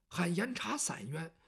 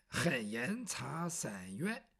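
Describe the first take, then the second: First: Said in the usual way. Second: Low, softly drawn-out petition cry; demonstrated slow cry. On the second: Shown as a demonstration. Bai Yutang shows Yumo how to cry grievance, slowly drawn out. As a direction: stretch each word out slowly, keeping it low. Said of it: "就这么喊".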